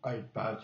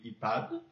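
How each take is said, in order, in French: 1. Il est prononcé avec un accent américain. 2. Il est prononcé avec un accent français.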